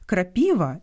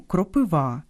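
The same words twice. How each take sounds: First: «крапіва» stressed on the middle syllable, ПІ; Russian stress. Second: «кропива» stressed on the last syllable, ВА; Ukrainian stress. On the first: Host showing a stress mix-up, Russian middle stress. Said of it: "з наголосами в російському слові". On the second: Host giving the Ukrainian word, final stress. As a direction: land on ВА in «кропива». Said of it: "і українському". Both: Shown as a demonstration.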